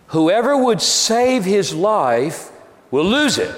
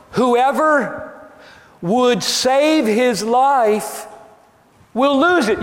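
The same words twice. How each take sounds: First: Said in the usual way. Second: "Whoever would save his life will lose it" slow, high and drawn out; insistent repetition. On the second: Real, not acted. Insistent re-reading for puzzled listeners.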